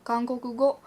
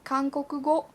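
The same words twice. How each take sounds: Both takes have the same delivery.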